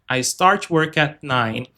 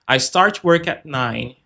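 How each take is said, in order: The two takes are said the same way.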